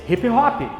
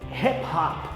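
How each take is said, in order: First: It is said with a Portuguese accent. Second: It is said with an English accent. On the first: "No português" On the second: "que é como se fala no inglês"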